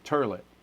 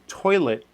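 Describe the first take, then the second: First: The first vowel is an 'er' sound. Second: The first vowel is a full 'oy' sound. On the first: "actually call it a turlet" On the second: "instead of saying toilet"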